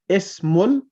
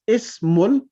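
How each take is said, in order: No difference in how they are said.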